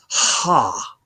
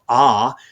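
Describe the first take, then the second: First: The vowel starts with an h sound. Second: The vowel starts without an h sound. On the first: "breathing mark is an H sound" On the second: "instead of ah"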